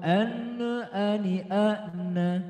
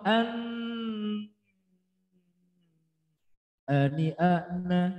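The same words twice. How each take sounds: First: An extra vowel sound follows the n. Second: The n is held with a nasal hum. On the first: "ada annanya. ... itu namanya tawalud" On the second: "salah. Itu sudah masuk kategori dengung"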